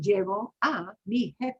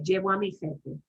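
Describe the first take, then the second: First: The phrase is said slowly, each word apart. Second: The phrase is said fast, words run together. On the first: The speaker calls it wrong. "They're not going to talk that slowly" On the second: The speaker calls it right. "it's going to go that fast"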